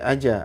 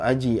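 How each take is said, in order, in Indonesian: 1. Pantulan akhir terdengar seperti vokal a. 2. Pantulan akhir terdengar seperti vokal i. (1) "Enggak boleh aja" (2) "atau aji, aji"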